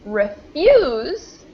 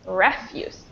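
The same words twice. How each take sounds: First: The stress is on the second syllable. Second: The stress is on the first syllable. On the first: It is used as a verb. "stress on the second" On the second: It is used as a noun. "the stress on the second word is in the first syllable"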